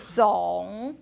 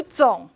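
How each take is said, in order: First: 总 slow, dipping low and rising back up; exaggerated full third tone. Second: 总 short, dipping low and cut off without the rise; clipped half third tone. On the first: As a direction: stretch 总 into a full dip and rise. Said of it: "if I exaggerate". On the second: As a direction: chop 总 off at the bottom of the dip. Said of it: "you chuck it right there". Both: Shown as a demonstration.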